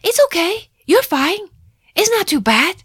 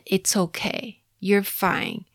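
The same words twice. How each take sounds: First: High, loud brisk comforting; grandma loudly brushing off a toddler's bump; loud reassurance. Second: Said in the usual way. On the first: Retold or imitated. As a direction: say it loudly to cut the crying short. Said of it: "她就会很大声的说". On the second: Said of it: "几乎是我婆婆很常用的安慰句".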